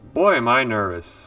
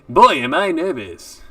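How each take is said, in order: First: It is said in the speaker's natural voice. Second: It is said in a put-on 1950s newsboy voice.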